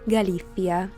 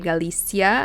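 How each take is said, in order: First: It is said the Spanish way with a lisp. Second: It is said with English pronunciation. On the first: "In Spanish it's Galicia, with your favorite little Spanish lisp" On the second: "that's how you would pronounce it in English"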